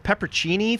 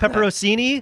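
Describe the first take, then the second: First: It is said without a middle 'on' syllable. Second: It is said with a middle 'on' syllable. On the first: This is the speaker's own habitual pronunciation. "I'm gonna say it my way" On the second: This copies a friend's pronunciation. "then I'll say it Brett's way"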